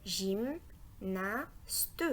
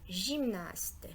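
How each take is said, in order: First: GYMNASTE broken into GYM... NA... STE; découpage en syllabes. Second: Said in the usual way. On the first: Shown as a demonstration. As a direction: pause after each beat, GYM, NA, STE. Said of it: "est aussi composé de trois syllabes". (GYMNASTE dit syllabe par syllabe) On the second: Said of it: "Le mot gymnaste".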